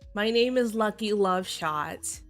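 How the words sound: It is said in an announcer voice.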